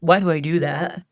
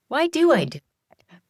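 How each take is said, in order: First: It is asked in a judgmental, critical tone. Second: It is asked in a curious, wondering tone. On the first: The asker is blaming themselves. The speaker calls it wrong. "It's not" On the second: The asker genuinely wants to understand themselves. The speaker calls it right.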